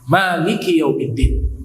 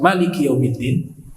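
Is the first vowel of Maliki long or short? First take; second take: long; short. First: The first vowel of Maliki is long. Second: The first vowel of Maliki is short. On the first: "bisa dibaca panjang dengan mat" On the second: "Bisa dibaca"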